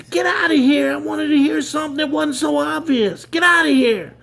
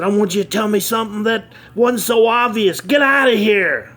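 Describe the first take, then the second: First: Much higher, louder enraged yelling; angrier blow-up. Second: Higher, louder furious outburst; angry blow-up. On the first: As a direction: explode at the kid even harder. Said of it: "C E O blows up again". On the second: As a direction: blow up at the kid, yelling. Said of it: "the C E O blew up". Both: Acted.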